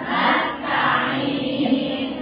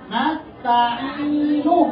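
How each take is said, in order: First: The word ends on a bare consonant. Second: The word ends with a short vowel.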